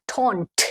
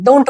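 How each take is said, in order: First: "डोंट" softer and stretched, with an English o and crisp released t; slow, soft "डोंट" ending in a sharp t; correct don't. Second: "डोंट" with a hard d and closed o; common reading of don't. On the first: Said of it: "लेकिन ये डोंट नहीं है". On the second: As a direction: say "डोंट" plainly with an Indian long o. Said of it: "normally क्या पढ़ते हैं". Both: Shown as a demonstration.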